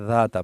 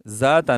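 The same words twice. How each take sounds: First: The first sound is a voiced th. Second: The first sound is a buzzing z. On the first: The speaker calls it right. "तो ये जाल है, ज़ाता पढ़े" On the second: The speaker calls it wrong. "इसको जा ना पढ़े, ज़ाता नहीं पढ़े"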